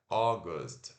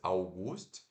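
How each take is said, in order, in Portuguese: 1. Ela é falada com os sons reais do inglês. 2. Ela é lida exatamente como se escreve. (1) "mas é August" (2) "como se fosse August"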